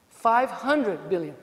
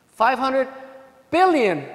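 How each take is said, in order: First: Very slow, drawn-out Five hundred billion; dragged out in disbelief; slow repetition. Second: Each word punched apart, pause before billion; spaced out for effect; emphatic number. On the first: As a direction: let Five hundred billion sink in slowly. Repeating the number for weight. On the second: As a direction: hit Five hundred, then pause and land billion. Lawyer stressing a huge number. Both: Shown as a demonstration.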